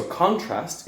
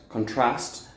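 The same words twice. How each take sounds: First: "contrast" stressed on first syllable, CON-trast; noun stress. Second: "contrast" stressed on second syllable, con-TRAST; verb stress. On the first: Teacher showing the noun, "contrast" stressed on CON. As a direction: hit CON in "contrast", full o vowel. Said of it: "contrast is the noun". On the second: Teacher showing the verb, "contrast" stressed on TRAST. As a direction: weaken the first vowel of "contrast", lean on TRAST. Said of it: "strength is in the second syllable". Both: Shown as a demonstration.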